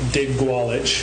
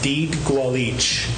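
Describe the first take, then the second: First: The first syllable does not sound like 'deed'. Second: The first syllable sounds like 'deed'. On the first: The speaker calls it wrong. "We've been calling it Dig Gwalch" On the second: The speaker calls it right. "it's pronounced Deed Gwalch. Like a car deed"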